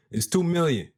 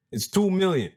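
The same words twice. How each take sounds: The two takes are said the same way.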